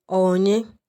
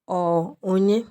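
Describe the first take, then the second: First: The middle syllable is dropped, shortening it. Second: The middle syllable is dropped, shortening it.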